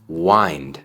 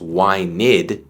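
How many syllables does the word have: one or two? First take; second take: one; two. First: The ending is a soft d without a syllable. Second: The ending adds an extra syllable. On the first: The speaker calls it right. "sino wind" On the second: The speaker calls it wrong. "No decimos wined"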